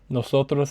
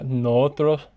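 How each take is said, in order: First: The s is a clear hissing s sound. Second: The s becomes a breathy h sound.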